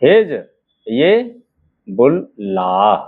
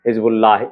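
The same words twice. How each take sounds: First: Slow हिज... बुल... लाह with long gaps; drawn-out dictation, last syllable लाह held low. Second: Said in the usual way. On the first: Shown as a demonstration. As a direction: sound out Hezbollah in separate pieces. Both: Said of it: "देखिएगा".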